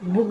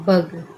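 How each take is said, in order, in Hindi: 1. स्वर 'book' के 'oo' जैसा बोला जाता है। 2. स्वर 'cup' के 'uh' जैसा बोला जाता है। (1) "बुग कहेंगे तो गलत हो जाएगा" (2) "क्या कहेंगे? बग"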